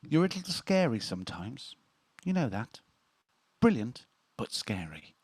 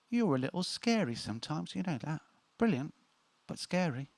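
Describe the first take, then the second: First: It is read in a normal voice. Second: It is read in a put-on character voice.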